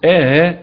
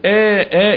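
First: The second stop is softened, with no vowel between. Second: A long vowel comes before a full second stop. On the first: "تحقيق مع تسهيل الهمزة بدون فصل" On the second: "إدخال بتحقيق"

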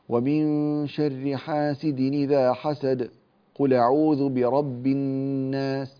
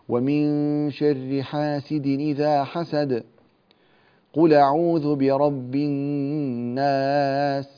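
First: A very short pause with no breath. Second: A longer pause with a breath taken. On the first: "السكت بين السورتين ... من غير تنفس" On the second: "الوقف على آخر السورة الأولى بتنفس"

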